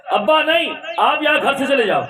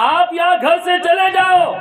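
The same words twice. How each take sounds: First: Impatient son. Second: Much higher and louder, yelling the repeat; furious shout. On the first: Son tells father to leave. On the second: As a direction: bellow it to drive him out. (بیٹا غصے میں باپ پر زور سے چیختا ہے) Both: Acted.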